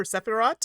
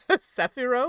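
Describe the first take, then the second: First: Sephirot closing on a T; final T pronounced. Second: Sephiro ending on an open O; silent final T. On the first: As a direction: say Sephirot with the T at the end. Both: Shown as a demonstration. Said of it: "now I'm questioning myself".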